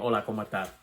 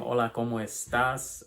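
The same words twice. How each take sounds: First: The final S sounds are dropped. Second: The final S sounds are clearly pronounced. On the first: "I don't pronounce my S's" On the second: "instead of saying"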